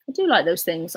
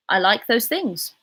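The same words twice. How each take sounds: First: Emphatic "do", the rest left unstressed; stress on DO. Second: Said in the usual way. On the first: Real, not acted. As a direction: lean on the word "do". Restates it with added emphatic do.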